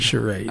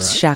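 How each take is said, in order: First: The word has the usual English pronunciation. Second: The word has a French-style pronunciation. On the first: "Charade, always" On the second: "Someone in French says charade"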